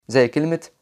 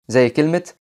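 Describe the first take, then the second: No difference in how they are said.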